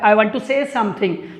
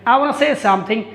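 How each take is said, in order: First: The words 'want to' are said in full. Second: The words 'want to' are reduced to 'wanna'. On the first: This is the grammatically correct form. "थोड़ा सा एक्वार्ड सा लग रहा है" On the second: This is a casual slang form. "Slang word के रूप में बाना यूज कर सकते हैं"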